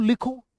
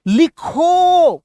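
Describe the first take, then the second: First: Said in the usual way. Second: Loud, high, long drawn-out order; commanding. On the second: Shown as a demonstration. Teacher orders the person in front to write, commanding. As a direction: call it out as an order, stretching it. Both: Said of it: "सामने वाले से".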